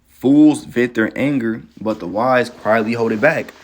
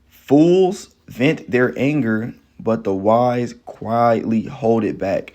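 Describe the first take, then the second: First: The verse is read at a normal speed. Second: The verse is read slowly and deliberately.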